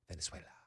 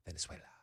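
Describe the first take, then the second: First: It is said with a Spanish accent. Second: The same.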